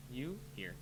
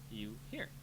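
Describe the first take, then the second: No difference in how they are said.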